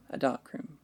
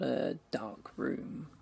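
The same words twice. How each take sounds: First: DARK ROOM run together, stressed on DARK; one compound word. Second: DARK ROOM drawn out slowly as two separate words. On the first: Narrator clarifying a photography darkroom, one compound word with stress on DARK. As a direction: hit DARK and tuck "room" straight onto it. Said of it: "like for photography". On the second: Narrator correcting the listener about the dream, two separate words. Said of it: "Not a dark room ... like for photography". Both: Acted.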